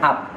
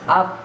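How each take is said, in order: First: The consonant is a stop with no escaping air. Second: The consonant lets air escape between the lips. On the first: The speaker calls it wrong. "Kadang-kadang kita bacanya ab ya, padahal bukan ab" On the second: The speaker calls it right. "ada angin yang keluar"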